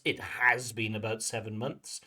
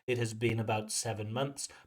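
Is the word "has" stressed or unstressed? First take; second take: stressed; unstressed. First: The word has carries strong stress. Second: The word has is said without stress. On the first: "we put that stress on the auxiliary for emphasis" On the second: "if you want to use the full form"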